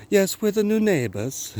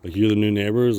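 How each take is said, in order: First: High-pitched mock British accent. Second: Said in the usual way. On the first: Neighbours introducing themselves to him, high mock British accent. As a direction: put on a high, exaggerated British voice. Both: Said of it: "I do love to do British accents".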